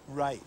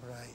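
First: It is said energetically, with more excitement. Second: It is said flatly, with little energy. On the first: The speaker calls it right. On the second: The speaker calls it wrong.

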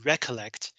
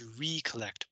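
First: The first syllable is a short, reduced 'reck'. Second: The first syllable is a full, separate 'ree'. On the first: To remember. "if you pronounce it recollect, it just means remember" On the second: To regain composure. "So I pronounce this recollect"

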